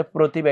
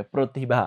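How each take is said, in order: First: Said in the usual way. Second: প্রতিভা with the first syllable said pro, like an o; o-sound pronunciation. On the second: Shown as a demonstration. Teacher showing students how প্রতিভা sounds, pro-ti-bha with an o. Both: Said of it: "ঔকার হবে এইভাবে".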